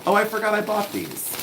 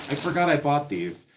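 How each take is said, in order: First: Sudden happy rediscovery; oh, a pleasant surprise, said high; surprised. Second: Said in the usual way. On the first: Real, not acted. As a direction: pitch jumps up high in delight at a forgotten find. Surprised find, then repeat.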